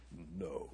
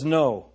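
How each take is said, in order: First: Much lower and much softer, a rumbling lion; deep lion voice. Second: Said in the usual way. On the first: Shown as a demonstration. Pastor trying Aslan's voice for the congregation, deep rumbling lion. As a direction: growl it low like Aslan, barely above a breath. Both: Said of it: "I wish I had the voice".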